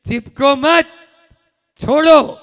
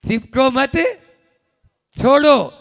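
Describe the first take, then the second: The two takes are said the same way.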